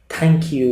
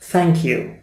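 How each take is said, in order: First: It begins with a hard t sound. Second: It begins with a soft th sound. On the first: "pronounce them only as te or de, ... which is not uh, correct" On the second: "one pronunciation is th"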